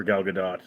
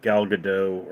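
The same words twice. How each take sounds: First: Gadot said guh-DOT, T pronounced; sounded final T. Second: Gadot said guh-DOH, silent T; French-style pronunciation. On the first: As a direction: finish Gadot on a hard T. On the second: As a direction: drop the final T in Gadot. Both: Shown as a demonstration. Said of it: "the correct pronunciation is Gadot".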